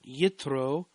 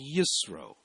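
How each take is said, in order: First: The consonant before the R is a T sound. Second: The consonant before the R is an S sound.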